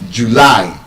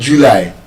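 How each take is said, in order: First: The stress is on the second syllable. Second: The stress is on the first syllable. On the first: The speaker calls it right. "The stress is on the second syllable" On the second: The speaker calls it wrong. "It's not stressed on the first syllable"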